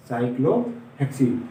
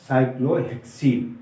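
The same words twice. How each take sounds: The two takes are said the same way.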